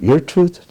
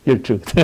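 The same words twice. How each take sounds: First: "Your truth?" rising, higher and a bit louder, stress on "Your"; mocking question. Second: "Your truth." stated with falling tune, weight on "Your"; flat statement. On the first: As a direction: ask "Your truth?" incredulously, voice going up at the end. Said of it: "she said, "Whose truth?". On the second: Retold or imitated. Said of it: "Oh, what does she mean?".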